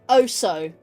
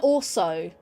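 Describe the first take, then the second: First: The word is said without any L sound. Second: The word is said with a clear L sound. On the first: "you'd say "oh so,"" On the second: "as in A L S O"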